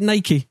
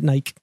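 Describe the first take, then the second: First: It is said with the American pronunciation. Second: It is said with the British pronunciation. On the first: "You pronounce it Nike" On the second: "we pronounce it Nike"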